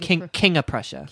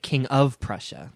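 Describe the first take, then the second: First: The name is said in a local, reduced pronunciation. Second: The name is said in a standard, careful pronunciation. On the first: The speaker calls it right. "You say King of Prussia" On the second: The speaker calls it wrong. "You don't say King of Prussia"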